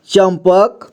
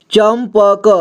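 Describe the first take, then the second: First: Said in the usual way. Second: चंपक sounded out as cham-pa-ka; syllable-by-syllable reading. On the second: Shown as a demonstration. Teacher showing learners how to join letters, चंपक as cham-pa-ka. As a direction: voice every letter of चंपक, final vowel too. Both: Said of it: "जोड़ जोड़ करके पढ़ना है".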